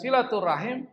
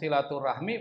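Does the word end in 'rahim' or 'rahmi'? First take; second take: rahim; rahmi. First: The word ends with the sounds 'rahim'. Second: The word ends with the sounds 'rahmi'. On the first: This is the Arabic form of the word. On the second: This is the Indonesian form of the word. "bahasa Indonesia nggak salah"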